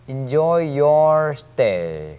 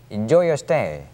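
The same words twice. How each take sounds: First: The words are said separately. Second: The words are run together. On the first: The speaker calls it wrong. "Enjoy your stay가 아니고" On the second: The speaker calls it right. "your stay도 겹쳐서 발음되기 때문에"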